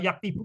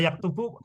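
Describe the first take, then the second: First: The second vowel is an 'i' sound. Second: The second vowel is a 'u' sound. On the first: The speaker calls it wrong. "Jadi bukan kataba yaktibu, bukan" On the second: The speaker calls it right. "Ini kataba yaktubu polanya itu fathah domah"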